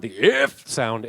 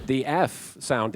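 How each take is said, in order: First: "if" squawked out as a censor sound effect; imitated sound effect. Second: Said in the usual way. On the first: Shown as a demonstration. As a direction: imitate a cartoon bleep on "if". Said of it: "that sound effect that plays".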